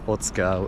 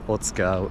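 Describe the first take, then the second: First: The middle 'u' vowel is nearly dropped. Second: The middle 'u' vowel is nearly dropped.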